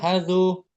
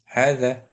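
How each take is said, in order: First: The word ends with a 'u' vowel. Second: The word ends with an 'a' vowel. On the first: The speaker calls it wrong. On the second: The speaker calls it right.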